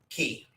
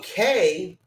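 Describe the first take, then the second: First: The word sounds like 'key', spelled K E Y. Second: The word sounds like 'kay', rhyming with Coco. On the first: This is how the locals say it. "it is actually pronounced, according to you know folks down there, Key" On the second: It is said this way to rhyme with the name. "they pronounce it that way so it rhymes"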